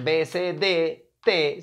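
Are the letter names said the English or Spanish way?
Spanish. The letters are named the Spanish way. The speaker calls it wrong. "En inglés no va a ser"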